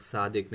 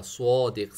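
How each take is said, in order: First: صادق said thin as Urdu saa-dik; the wrong light صادق like س; thin saa-dik, the mistake; light sad, wrong. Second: صادق said loud with a thick, rounded so-dik; صادق as heavy sod-ik; heavy sad. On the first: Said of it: "صادق نہیں". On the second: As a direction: open the mouth and make صادق heavy. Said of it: "سوات کو ہمیشہ موٹا". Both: Shown as a demonstration.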